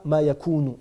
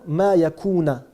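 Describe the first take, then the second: First: The last word ends in a 'u' vowel. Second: The last word ends in an 'a' vowel. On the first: The speaker calls it wrong. "On ne dit pas" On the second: The speaker calls it right. "La vraie façon de le lire"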